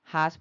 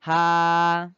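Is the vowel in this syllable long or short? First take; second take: short; long. First: The vowel is short, held for one beat. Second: The vowel is long, held for two beats. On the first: "A-nya cuma satu" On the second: "menjadi panjang dua ketukan. Dua harokat"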